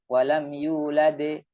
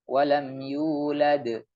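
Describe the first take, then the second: First: The final echo vowel is drawn out long. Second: The final echo vowel is a brief bounce. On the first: The speaker calls it wrong. "Terlalu panjang" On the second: The speaker calls it right. "sekedar memantul"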